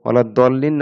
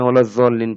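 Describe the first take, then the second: First: The second word begins with a d-like sound. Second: The second word begins with a z sound. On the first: "সূরা কেরাত পড়ার সময় ঠিকই দদকে দদের মতোই উচ্চারণ করে" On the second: "দদকে জ বলে"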